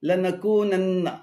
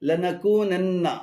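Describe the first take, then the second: No difference in how they are said.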